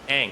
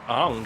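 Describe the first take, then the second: First: The vowel sounds like the one in 'bang'. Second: The vowel sounds like the one in 'song'. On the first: The speaker calls it right. "I was trying to say it right" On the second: The speaker calls it wrong. "I said it wrong"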